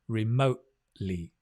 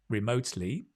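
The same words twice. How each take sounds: First: The T is replaced by a glottal stop. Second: The T is clearly pronounced as a full sound. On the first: "probably more common is work remotely ... a glottal stop" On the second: "you can say either work remotely"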